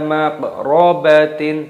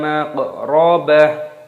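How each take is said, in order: First: The word ends with a 'tin' sound. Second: The word ends softly with an 'h' sound. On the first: The speaker calls it wrong. "Jangan dibaca ... tidak boleh" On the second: The speaker calls it right. "Maka cara membacanya"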